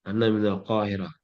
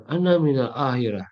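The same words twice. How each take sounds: First: Qahirah with a clear q, said softly; correct pronunciation. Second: Ahirah said with the q dropped, as a wrong example; wrong pronunciation. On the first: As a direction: keep the q sound in Qahirah. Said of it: "Nyebutnya tetap Qahirah". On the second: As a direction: drop the q in Ahirah on purpose. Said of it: "nggak ada itu". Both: Shown as a demonstration.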